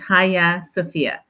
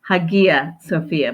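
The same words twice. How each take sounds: First: The name is said differently from its spelling. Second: The name is read the way it is spelled. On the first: The speaker calls it right. "it's actually pronounced" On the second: The speaker calls it wrong. "It looks like"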